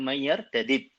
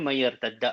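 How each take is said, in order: First: The two d sounds are separated by a vowel. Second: The two d sounds merge into one long d.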